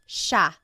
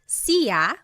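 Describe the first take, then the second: First: The word is said differently from its spelling. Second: The word is sounded out as it is spelled. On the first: The speaker calls it right. "but it's actually pronounced siya" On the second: The speaker calls it wrong. "It looks like it should be pronounced siya"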